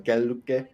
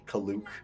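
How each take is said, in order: First: The name is said in its likely native form. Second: The name is said in a shortened anglicized form. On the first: This is probably the correct pronunciation. The speaker calls it right. "is probably how you pronounce it" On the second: This is the habitual way of saying it. The speaker calls it wrong. "I've just always said like Kaluk"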